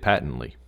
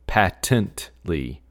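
First: The word is said in an ordinary way. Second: The 'patent' part is strongly emphasized. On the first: "I would say just like you did" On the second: "where they really emphasize like the patent part of it"

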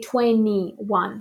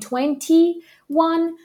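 First: The t in twenty is dropped. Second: The t in twenty is fully pronounced.

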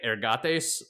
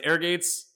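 First: The word is pronounced in a Latin-like way. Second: The word is pronounced in an anglicized way. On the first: This is how it would be said in Latin. "I have a feeling in Latin would be like ergates" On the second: This is the pronunciation the source gives. "which it says ergates"

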